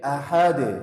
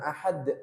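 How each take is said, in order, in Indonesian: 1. Bunyi d terakhir dilepaskan dengan gema yang memantul. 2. Bunyi d terakhir berakhir datar tanpa pantulan. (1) "tapi ahad. Nah, dipantulkan" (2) "jangan ahad"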